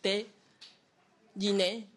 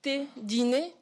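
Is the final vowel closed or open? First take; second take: open; closed. First: The final vowel is an open e. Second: The final vowel is a closed e. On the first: The speaker calls it wrong. "aura tendance à le ouvrir" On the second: The speaker calls it right. "un « e » fermé final"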